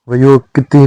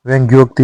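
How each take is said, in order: First: वयोक्ति said va-yok-ti; wrong short form. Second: व्यंग्योक्ति said vyang-gyok-ti; correct full form. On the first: Teacher showing learners the mistake, वयोक्ति as va-yok-ti. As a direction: say वयोक्ति with no nasal ng. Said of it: "व्यंग्योक्ति होता है". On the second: Teacher giving learners the correction, व्यंग्योक्ति as vyang-gyok-ti. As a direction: say व्यंग्योक्ति with the ng-gy cluster. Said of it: "वयोक्ति नहीं होता है". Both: Shown as a demonstration.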